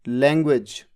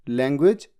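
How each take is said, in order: No difference in how they are said.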